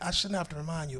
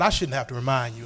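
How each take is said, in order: First: It is said in a soft, caring tone. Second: It is said in a sharp, scolding tone. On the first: The speaker cares and states what matters to them. The speaker calls it right. "there's a way you can say that phrase" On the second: The speaker talks down to the listener like a child. The speaker calls it wrong. "That's different than, you know what"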